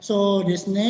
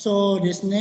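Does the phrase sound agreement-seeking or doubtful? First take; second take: doubtful; doubtful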